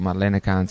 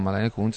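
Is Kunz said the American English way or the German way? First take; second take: American English; German. First: Kunz sounds like the American English vulgar plural. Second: Kunz sounds like a German surname, as written. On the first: The speaker calls it right. "detto Marlene Kunz" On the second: The speaker calls it wrong. "non Marlene Kunz"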